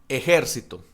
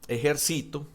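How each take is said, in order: First: The stress is on the second syllable. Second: The stress is on the third syllable. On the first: It names a group of armed people. "esdrújulas, o sea que tiene la tilde en la antepenúltima" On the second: It is a verb in the present. "que la tiene en la, en la I, en el sí"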